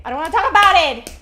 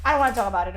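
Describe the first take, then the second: First: Loud, fast, higher outburst; shouting. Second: Said in the usual way. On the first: Pretend. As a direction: blurt it out in a shout. Shouted repeat.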